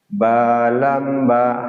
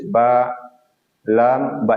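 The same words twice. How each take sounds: First: The letter names run together without breaks. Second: The letter names are separated by breaks. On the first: The speaker calls it right. "harus ba lam ba, harus ber, bersambung" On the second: The speaker calls it wrong. "Kalau misalnya terputus ba lam ba itu tidak boleh"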